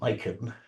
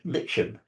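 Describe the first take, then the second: First: The word has an American pronunciation. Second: The word has a British pronunciation. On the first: The speaker calls it wrong. "None of this American rubbish" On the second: The speaker calls it right. "Notice I'm pronouncing it correctly"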